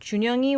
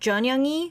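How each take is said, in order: First: The first syllable has a rounded 'u' vowel. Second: The first syllable has an open 'eo' vowel. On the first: The speaker calls it right. "this pronunciation of 준영이" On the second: The speaker calls it wrong. "it kind of sounded like 전영이"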